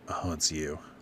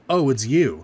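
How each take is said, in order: First: It is said in an unenthusiastic tone. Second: It is said in an enthusiastic tone.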